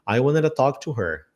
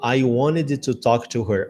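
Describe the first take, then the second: First: The words are reduced and run together. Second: Each word is said fully and separately. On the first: "Eles vão falar I wanted a" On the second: "Eu não falo I wanted to talk to her"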